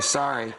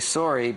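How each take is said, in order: First: It is said in an American accent. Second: It is said in a Canadian accent.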